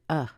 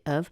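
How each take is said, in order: First: A schwa vowel alone, with no v sound. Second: A schwa vowel followed by a v sound. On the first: "Sometimes you might hear uh" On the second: "you put a schwa there instead, you get of"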